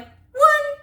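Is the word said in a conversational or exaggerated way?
exaggerated. It is said in an exaggerated, unnatural way.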